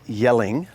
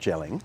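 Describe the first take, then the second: First: The name begins with a Y sound. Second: The name begins with a J sound. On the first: The speaker calls it right. "So we're here in Yelling, not gelling" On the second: The speaker calls it wrong. "not gelling"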